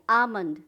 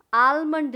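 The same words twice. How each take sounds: First: आमंड with no L, aa-mund; silent L. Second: आलमंड with a clear L, al-mund; loud आलमंड, L pronounced; wrong pronunciation, L sounded. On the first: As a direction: drop the L in आमंड, loud and falling. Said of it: "L silent है". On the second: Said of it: "आलमंड नहीं". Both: Shown as a demonstration.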